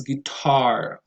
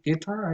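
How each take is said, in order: First: Guitar with TAR stressed, drawn out; majority pronunciation. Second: Guitar with the first syllable stressed; GIT-ar for guitar; dialectal pronunciation. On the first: Shown as a demonstration. Introducing the next word, guitar stressed on TAR. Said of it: "might say guitar". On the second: Retold or imitated. Quoting a dialectal variant, guitar stressed on GUI. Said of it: "dialectal variations of English".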